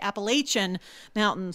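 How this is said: It is said with a Northern US pronunciation.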